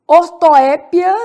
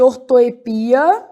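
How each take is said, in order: First: Slow, louder ortoépia, stressed on the É. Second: Ortoepia stressed on the PI. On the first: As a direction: punch the É in ortoépia. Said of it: "que eu também posso chamar de". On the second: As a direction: land on the long I in ortoepia. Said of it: "também posso chamar de ortoepia". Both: Shown as a demonstration.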